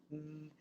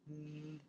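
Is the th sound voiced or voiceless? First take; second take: voiced; voiced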